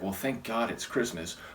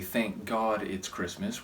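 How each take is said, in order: First: It sounds like a sigh of relief. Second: It sounds like a sincere spiritual thanks.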